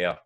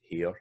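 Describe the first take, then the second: First: "hair" in the speaker's Scots dialect, with an S-like sound. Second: Said in the usual way. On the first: Shown as a demonstration. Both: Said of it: "in my dialect I'd pronounce that hair".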